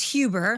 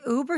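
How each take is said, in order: First: The word starts with an added h sound. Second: The word starts with a vowel, no h. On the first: It imitates how someone else mispronounces it. The speaker calls it wrong. "He says for Uber is Hu, which H" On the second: It is the usual pronunciation. The speaker calls it right. "Dad, an Uber?"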